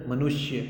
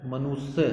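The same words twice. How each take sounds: First: मनुष्य with a clear sh before y; correct pronunciation. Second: मनुष्य with s in place of sh; wrong pronunciation. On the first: Teacher gives children the right form, correctly pronounced. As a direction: say मनुष्य as "manushya". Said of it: "ये सही तरीके से". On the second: Teacher shows children the common mistake, mispronounced. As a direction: say मनुष्य as "manusya". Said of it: "ये सारे गलत तरीके से". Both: Shown as a demonstration.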